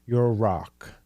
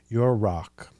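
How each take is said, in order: Both takes have the same delivery.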